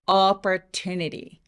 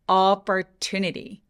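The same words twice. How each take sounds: First: One syllable is long, loud and resonant. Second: One syllable is long, loud and resonant.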